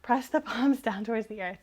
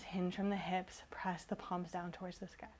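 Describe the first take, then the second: First: Correcting 'earth' with a laugh; laughing correction. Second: Whispered cue with the wrong word; soft slip. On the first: Teacher laughs as she corrects her own cue. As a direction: catch the slip and fix it, chuckling. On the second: Teacher cues her class with a whispered slip of the tongue. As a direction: breathe it out softly, not noticing the mistake. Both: Real, not acted. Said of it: "I can't speak today".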